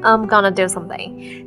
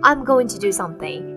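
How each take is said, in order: First: Going to is reduced to gonna. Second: Going to is said in full.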